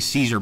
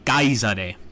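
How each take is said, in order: First: The name begins with a soft S sound. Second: The name begins with a hard K sound. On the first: This is the modern way to say the name. "that's sort of the contemporary way of, uh, of calling him" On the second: This is how the name was said in ancient Latin. "I believe the C was pronounced as a K"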